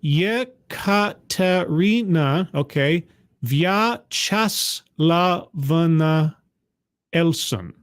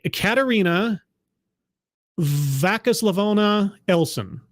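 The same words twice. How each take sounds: First: Yekaterina Vyacheslavovna Elson, very slow, syllable by syllable, vyah-cheh-SLAH-vov-na; corrected Russian name. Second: A hesitant first stab at Vakislavovna; first guess at the name. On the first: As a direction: carefully sound out Vyacheslavovna like a Russian speaker. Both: Shown as a demonstration. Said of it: "Did I get that right?".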